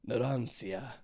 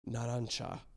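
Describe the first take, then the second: First: The name is said as the viewers say it. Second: The name is said as the Japanese show says it. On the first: "you say it like this" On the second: "I know that's how they're saying it"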